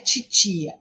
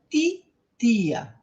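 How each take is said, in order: First: The t sounds like ch before i. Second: The t is a plain, crisp t sound. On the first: The speaker calls it wrong. "não tem esse tch, não é titia" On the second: The speaker calls it right. "é titia"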